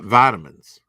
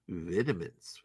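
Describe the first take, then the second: First: The word is said in a Southern accent. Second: The word is said in a posh accent. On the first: "Southern, whatever. That's how I say it" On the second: "with the finger in the air. Ew, posh"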